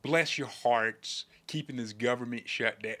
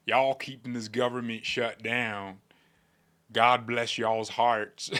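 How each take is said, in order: First: A hint of a genteel Southern lady. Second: Drawn-out Southern drawl; mock Southern politician's drawl; Southern accent. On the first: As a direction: stretch it out like a Southern belle. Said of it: "like a Southern lady". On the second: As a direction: put on a folksy Southern accent. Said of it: "if he had a Southern accent".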